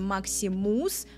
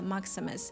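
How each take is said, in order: First: The last syllable has a full 'oo' vowel. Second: The last syllable has a reduced schwa vowel. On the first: "По-русски мы говорим Максимус, такое у, да, в конце" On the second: "На английском это Maximus, Maximus, через звук шва"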